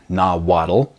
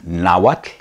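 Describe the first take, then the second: First: The word is said with an anglicized pronunciation. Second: The word is said with the native pronunciation. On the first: The speaker calls it wrong. "Not Nawatl" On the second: The speaker calls it right. "Another word is Nawatl"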